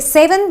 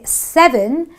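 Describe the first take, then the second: First: The first vowel is not an 'eh' sound. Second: The first vowel is an 'eh' sound. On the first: The speaker calls it wrong. "I don't say seven" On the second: The speaker calls it right. "the E gives me the eh sound"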